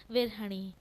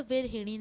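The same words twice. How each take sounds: First: विरहणी with no i after h; the wrong विरहणी, vi-rah-ni; wrong form virahni. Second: विरहिणी with an i after h; correct form virahini. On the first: (गलत रूप विरहणी) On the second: (शुद्ध रूप विरहिणी) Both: Shown as a demonstration. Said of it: "ना कि".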